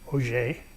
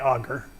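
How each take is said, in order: First: The word is pronounced the French way. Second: The word is pronounced the English way. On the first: The speaker calls it right. "It's French" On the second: The speaker calls it wrong. "don't say Auger"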